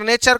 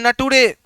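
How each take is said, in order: First: The middle consonant is a 'ch' sound. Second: The middle consonant is a 't' sound. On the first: The speaker calls it right. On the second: The speaker calls it wrong. "नेचर को पढ़ रहा है नटुरे"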